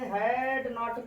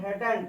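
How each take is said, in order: First: It is said as two full words. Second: It is said as one contracted word.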